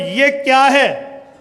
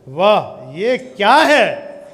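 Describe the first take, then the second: First: It sounds like a plain, neutral question. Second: It sounds amazed and admiring.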